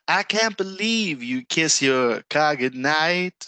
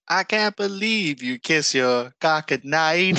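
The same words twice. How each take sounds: First: The lyric as heard, slow and drawn out; slow, sung-through lyric with car goodnight; car goodnight said clearly as two words. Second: "car goodnight" run together so it sounds like "cock at night"; lightly imitated Canadian singer's accent; misheard Canadian accent. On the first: Retold or imitated. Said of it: "she goes". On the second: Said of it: "in her accent".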